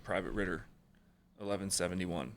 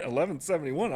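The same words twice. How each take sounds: First: Said in the usual way. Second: Eleven seventy-one said higher with a rising disbelieving tune; incredulous repeat. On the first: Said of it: "they were like". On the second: Retold or imitated. Recruit repeating his assigned job number in disbelief, higher rising tone. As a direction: throw the number back in shock. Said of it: "And I was like".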